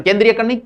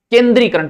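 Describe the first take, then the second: First: केंद्रीयकरण said with an extra ya, kendriyakaran; wrong pronunciation. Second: केंद्रीकरण said kendrikaran, no ya sound; correct pronunciation. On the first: Teacher showing students the common error, wrong form. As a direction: add the ya sound in केंद्रीयकरण, as the mistake. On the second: Teacher giving students the right form, careful correct pronunciation. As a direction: say केंद्रीकरण as ken-dri-ka-ran. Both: Shown as a demonstration.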